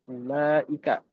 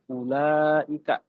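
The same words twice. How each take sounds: First: The vowel after the L is short. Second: The vowel after the L is long. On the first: The speaker calls it wrong. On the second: The speaker calls it right. "Lamnya panjang"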